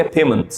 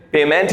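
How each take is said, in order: First: पेमेंट ending in a short "munt"; correct pronunciation. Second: पेमेंट with a long, full "ment"; wrong pronunciation. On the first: Teacher showing the short sound, correctly pronounced. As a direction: say पेमेंट as PAY-m'nt. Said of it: "short sound होती है". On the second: Teacher naming the form not to say, mispronounced. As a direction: say पेमेंट with an open E in the ending. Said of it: "पेमेंट नहीं बोलेंगे". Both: Shown as a demonstration.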